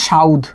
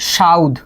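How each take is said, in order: First: The u sound comes before the dh. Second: The u sound comes before the dh.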